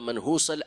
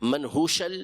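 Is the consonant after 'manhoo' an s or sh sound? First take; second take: s; sh. First: The consonant after 'manhoo' is s. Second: The consonant after 'manhoo' is sh. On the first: "मनहूस या मनहूश दोनों पढ़ा गया है" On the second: "मनहूस या मनहूश दोनों पढ़ा गया है"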